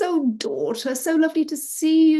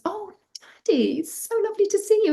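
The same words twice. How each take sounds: First: High, loud, hearty welcome; excited father. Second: High, fast squeal of greeting; excited daughter. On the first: Father greeting his daughter, excited. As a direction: gush loudly over a long-missed child. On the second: Daughter greeting her father, excited. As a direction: rush the greeting in girlish high delight. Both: A narrator's reading. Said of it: "they're really excited to see each other".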